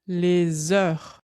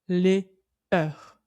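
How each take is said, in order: First: The s is linked onto the next word. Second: The two words are kept separate, without liaison. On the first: The speaker calls it right. "On dit aussi les heures. On fait bien la liaison" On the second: The speaker calls it wrong. "On ne dit pas les heures"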